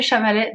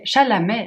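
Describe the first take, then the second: First: Chalamet said as "Chamalet", l and m swapped; unsure name pronunciation. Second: Chalamet said "sha-la-MAY", l before m, rising; corrected name pronunciation. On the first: Vlogger unsure how to say the actor's name, swapped sounds. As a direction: stumble on Chalamet with the m before the l. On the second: Vlogger corrects herself on the actor's name, rising and unsure. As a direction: settle on Chalamet with l then m, asking. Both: Real, not acted. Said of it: "j'ai toujours un problème avec ce nom".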